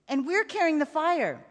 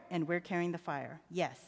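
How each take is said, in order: First: Put-on higher-pitched child's insistence; a boy checking a shared creed; earnest boy. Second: Low, soft father's confirmation; reassuring father. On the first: Child seeks reassurance. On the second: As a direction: quietly affirm it for a child. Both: A narrator's reading.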